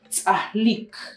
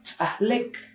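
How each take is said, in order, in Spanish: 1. La vocal final suena como i. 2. La vocal final suena como e. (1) "la escritura correcta" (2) "cuando usted escucha a alguien hablar en pocomam, va a escuchar tzahlek"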